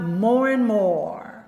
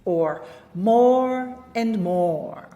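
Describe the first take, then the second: First: The 'and' is reduced and linked without pause. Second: The 'and' is said fully with a slight pause.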